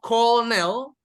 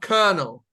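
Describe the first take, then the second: First: The first syllable sounds like 'call'. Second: The first syllable sounds like 'ker'. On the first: The speaker calls it wrong. "Not colonel" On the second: The speaker calls it right. "but colonel"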